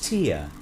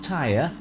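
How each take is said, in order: First: The word is said rhyming with 'fear'. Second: The word is said rhyming with 'fire'. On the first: The speaker calls it right. "It's tier" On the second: The speaker calls it wrong. "It's not tire"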